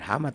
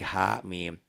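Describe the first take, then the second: First: The letter names run together as one word. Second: Each letter name is said separately. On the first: The speaker calls it wrong. "itu jangan digabungin" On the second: The speaker calls it right. "bacanya diejah"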